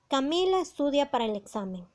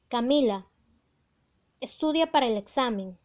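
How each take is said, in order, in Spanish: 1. No hay pausa después de la primera palabra. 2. Hay una pausa después de la primera palabra.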